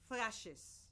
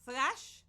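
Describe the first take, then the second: First: Thrashes with an added iz syllable. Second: Thrash said short, one syllable, ending in sh; root word. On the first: Teacher showing the ending added to the verb. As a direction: add the iz sound to thrashes. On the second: Teacher contrasting the root with the -es form. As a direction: clip thrash off at the sh. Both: Shown as a demonstration.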